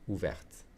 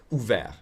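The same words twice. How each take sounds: First: "Ouverte" with the final T sounded; final T pronounced. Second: "Ouvert" ending on the vowel and R, no T; silent final T. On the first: Teacher showing feminine form to learners, "Ouverte" with sounded T. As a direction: say "Ouverte" ending on an audible T. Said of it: "ouverte with a T". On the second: Teacher showing masculine form to learners, "Ouvert" without a T. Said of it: "I'm pronouncing the T". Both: Shown as a demonstration.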